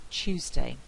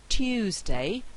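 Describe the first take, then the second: First: "Tuesday" as "Choosday", t and y merged. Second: "Tuesday" with a clear t plus y glide; careful Tuesday. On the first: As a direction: let t and y coalesce: "Tuesday" = Choosday. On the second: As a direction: say "Tuesday" as tyoozday, glide kept. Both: Shown as a demonstration. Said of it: "very often realised as Tuesday".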